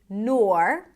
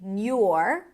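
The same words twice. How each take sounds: First: The syllable has an or vowel, no y glide. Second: A y glide comes before the vowel. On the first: "You can either say nor" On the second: "nor with a y sound"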